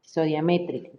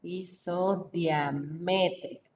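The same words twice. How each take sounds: First: "Isodiamétrica" with the accent landing on the é of -mé-; stress on the E. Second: "Isodiamétrica" said slowly, syllable by syllable; slow careful dictation. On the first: Teacher correcting pronunciation for students, stress on the E. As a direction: hit the é in "Isodiamétrica", falling at the end. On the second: Teacher dictating a new word to class, slow and deliberate. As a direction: spell out "Isodiamétrica" slowly for the students. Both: Shown as a demonstration. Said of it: "Con acento en la E".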